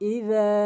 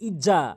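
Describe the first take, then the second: First: The middle consonant is a soft 'dh' sound. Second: The middle consonant is a hard 'j' sound. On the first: The speaker calls it right. "জিব্বার আগা দাঁতের আগা মিলিয়ে উচ্চারণ করতে হবে নরমালি, হালকা করে" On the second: The speaker calls it wrong. "অনেকেই ভুল উচ্চারণ করে বলি ইজা, অর্থাৎ জালের জায়গায় আমরা জিম এনে উচ্চারণ করি"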